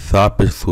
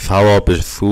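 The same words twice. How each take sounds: First: Final সু short; without stretch. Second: Final সু held long; with stretch. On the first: Teacher shows students ওয়াও lost, short সু. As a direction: say সু with a quick oo, not held. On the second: Teacher shows students where ওয়াও counts, long-held সু. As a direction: draw out the oo of সু. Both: Shown as a demonstration. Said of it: "টান না দিলে".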